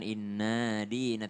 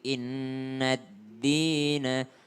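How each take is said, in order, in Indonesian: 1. Bunyi d tunggal mengawali dina. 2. Bunyi d ganda menyambungkan inna ke dina. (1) "bukan inna dina" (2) "tapi innad dina"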